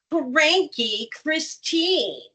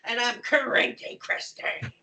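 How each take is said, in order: First: Slow, grumpy drawn-out name; cranky. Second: Breathy whisper of the name; whispered cranky. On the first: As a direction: say it like you're cranky. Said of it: "kind of become the emotion". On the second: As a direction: whisper it, grumpy and slow. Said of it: "become the emotion". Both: Shown as a demonstration.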